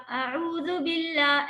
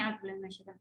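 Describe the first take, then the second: First: Slow, elongated, higher-pitched chant; recitation style. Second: Quick soft mumble, words swallowed; wrong, hushed way. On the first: Teacher showing students the correct opening, slow measured recitation. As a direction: intone it fully, stretching each long vowel. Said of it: "جیسے آپ تلاوت کرتی ہیں اسی طرح سے". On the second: Teacher showing students how not to begin, hushed mumble. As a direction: murmur it under the breath as if skipping past. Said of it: "اس طرح سے نہیں". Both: Shown as a demonstration.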